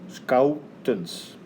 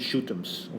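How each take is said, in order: First: The name begins with a hard sk sound. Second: The name begins with a soft sh sound. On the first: The speaker calls it right. "Like you would pronounce the word scout" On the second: The speaker calls it wrong. "don't call me shootums"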